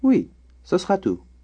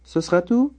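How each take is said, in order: First: It is said as an answer, falling. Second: It is said as a question, rising.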